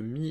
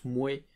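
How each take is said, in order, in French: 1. Le mot se prononce avec une voyelle 'ee'. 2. Le mot se prononce avec une voyelle 'way'. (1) "typique euh, ch'ti" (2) "en picard plus traditionnel, un peu plus vieux"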